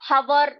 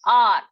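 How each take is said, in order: First: The word begins with an h sound. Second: The word begins with a vowel sound. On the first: The speaker calls it wrong. "इसको हम हवर नहीं पढ़ेंगे" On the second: The speaker calls it right. "इसमें एच जो है वो silent है"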